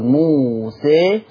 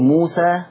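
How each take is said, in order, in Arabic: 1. الحركة الأخيرة تميل نحو صوت الكسرة. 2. الحركة الأخيرة فتحة خالصة واضحة. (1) "حدث انحراف وميل للصوت فهذا يسمى بالإمالة" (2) "فهذا فتح"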